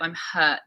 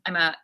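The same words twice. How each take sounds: First: The word hurt starts with a breathy h sound. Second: The word hurt starts without an h sound. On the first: The speaker calls it right. "instead of I'm hurt" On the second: The speaker calls it wrong. "You'd say hurt"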